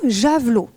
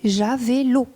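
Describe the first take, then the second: First: The word is said in its usual form. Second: The word is said with a distorted E sound. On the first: The speaker calls it right. "bien connu de la part des élèves" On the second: The speaker calls it wrong. "en déformant la forme attendue"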